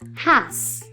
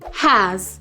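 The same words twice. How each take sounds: First: It ends in a voiceless s sound. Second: It ends in a voiced z sound. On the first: The speaker calls it wrong. "not has" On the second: The speaker calls it right. "Z, as in"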